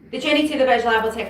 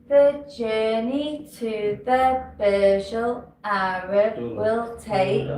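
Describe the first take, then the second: First: It is spoken very quickly. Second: It is spoken very slowly. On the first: The listener cannot follow it. "It's too fast" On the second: The listener has arrived before it ends. "it's too slow"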